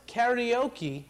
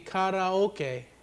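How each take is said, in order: First: It starts like 'carry' and ends in 'okee'. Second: It starts like 'car-ah' with separate vowels. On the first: The speaker calls it wrong. "it would have to be K A R I O K I" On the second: The speaker calls it right. "K A R A O K E, which would be karaoke"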